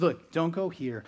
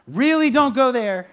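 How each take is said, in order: First: Said in the usual way. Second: Much louder and higher on the warning; forceful warning. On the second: Retold or imitated. Exhorter warning the hearer off a path, loud and pressing. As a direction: plead hard, nearly shouting.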